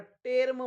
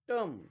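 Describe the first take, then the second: First: The vowel sounds like 'eh' before the r. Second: The vowel sounds like 'uh' before the r. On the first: The speaker calls it wrong. "याला टेर्म म्हणू नये" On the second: The speaker calls it right.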